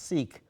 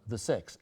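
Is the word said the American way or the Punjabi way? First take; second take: American; Punjabi. First: The word has its common American pronunciation. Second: The word has its Punjabi pronunciation. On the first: "the more common pronunciation here" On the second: "I pronounce it as they pronounce it in Punjab"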